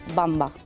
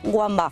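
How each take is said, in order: First: The name begins with a B sound. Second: The name begins with a W sound. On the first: The speaker calls it right. "la W germana se pronuncia como la B, o sea que sería Bamba" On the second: The speaker calls it wrong. "mucha gente dice Wamba"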